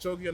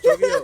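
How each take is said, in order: First: The word is said fairly quietly. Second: The word is said more loudly. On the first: The speaker calls it wrong. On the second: The speaker calls it right.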